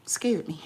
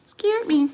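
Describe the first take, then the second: First: Said in the usual way. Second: High, loud startled cry; real startle, loud and high; startled exclamation. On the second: Real, not acted. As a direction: say it jolted, pitch leaping up. Startled by slap on table.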